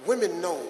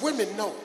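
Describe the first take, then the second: No difference in how they are said.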